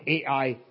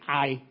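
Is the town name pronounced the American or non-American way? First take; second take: American; non-American. First: The name is said the American way. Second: The name is said the non-American way. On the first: "the Americans say AI" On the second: "I say I"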